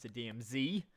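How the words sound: The last letter is said the American way, 'zee'.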